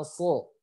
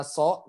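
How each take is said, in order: First: "so" with heavy emphatic S; thick sod. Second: "so" with a light S like sin; thin S. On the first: Teacher tests the students, thick "so". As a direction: say "so" with the tongue back raised. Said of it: "mana so". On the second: Teacher tests the students, thin "so". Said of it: "Kalian bisa bedakan mana so". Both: Shown as a demonstration.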